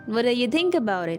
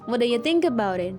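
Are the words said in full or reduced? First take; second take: reduced; reduced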